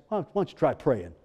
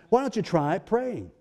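First: Low, offhand rhetorical suggestion. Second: Pointed prodding. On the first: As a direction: toss out the obvious answer, low. Answers preacher's own question, first take. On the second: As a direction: prod them with the obvious answer. Repeats it pointedly after "Hello?. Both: Acted.

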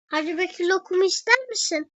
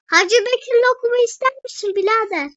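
First: Said in the usual way. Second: Louder, higher, fast street hawker pitch; hawker's call. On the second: Pretend. Offering lokum to a passing brother, loud hawker voice. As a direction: sell it like a loud bazaar vendor. Vendor call repeated, punched up.

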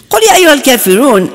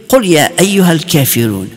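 First: Rushed recitation. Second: Rapid recitation. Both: Retold or imitated. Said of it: "I remember him starting to read".

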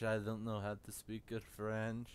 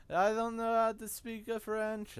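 First: Said in the usual way. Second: High mock voice.

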